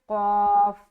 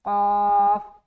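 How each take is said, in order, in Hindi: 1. यह हर्फ़ भारी और मोटा बोला जाता है। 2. यह हर्फ़ भारी और मोटा बोला जाता है।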